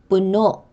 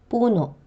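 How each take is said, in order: First: The stress is on the last syllable. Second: The stress is on the first syllable. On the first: It means full. "The stress is on the last syllable, which is pronounced with a glottal catch" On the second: It means tree. "The stress is also on the syllable before the last, but the vowel at the end is pronounced with a glottal catch"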